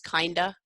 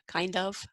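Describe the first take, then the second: First: The word 'of' shrinks to a quick schwa. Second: The word 'of' is said fully, ending in v.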